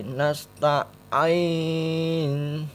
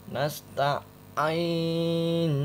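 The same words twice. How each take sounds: Both takes have the same delivery.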